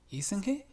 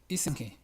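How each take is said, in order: First: Isn't he? rising like a real question; "isn't he?" with the pitch going up at the end; isn't he asked as a question; wrong question rise. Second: "isn't he?" with the stress on isn and the pitch falling; isn't stressed, no question rise. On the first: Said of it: "no se dice". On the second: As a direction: hit isn't and let he drop. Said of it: "se dice". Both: Shown as a demonstration.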